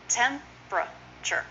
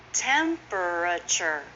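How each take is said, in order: First: Slow "temperature", TEM-pra-chur, in parts; shortened, three syllables. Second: Slow "Temperature", tem-per-a-ture; full four syllables. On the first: Teacher sounding it out, "temperature" slowly in three syllables. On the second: Teacher showing the long form, "Temperature" slowly in four syllables. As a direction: sound out every vowel of "Temperature". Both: Shown as a demonstration. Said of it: "is often".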